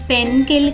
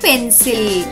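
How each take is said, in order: First: The c is pronounced as a k sound. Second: The c is pronounced as an s sound. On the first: The speaker calls it wrong. "పెన్కిల్ కాదు" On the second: The speaker calls it right. "సి యొక్క శబ్దం ఖ కాకుండా స అవుతుంది"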